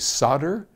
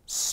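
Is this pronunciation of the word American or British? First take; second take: American; British. First: It is said the American way. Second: It is said the British way. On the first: "over here we say" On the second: "across the pond, they say"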